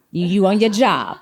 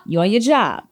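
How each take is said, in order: First: Slow, with your leaned on; stress on your. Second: You on your job with job stressed and falling. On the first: Host teasing a panelist, slow, pressing on your. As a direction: say you on YOUR job, leaning on your. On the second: Host repeating the praise, now punching job. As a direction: land hard on job, falling. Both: Shown as a demonstration.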